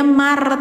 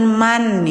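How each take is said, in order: First: The n disappears and becomes an r sound. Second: A clear n sound is pronounced. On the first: The speaker calls it right. "Jadi bacanya mar teman-teman" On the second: The speaker calls it wrong. "Jadi jangan man ya"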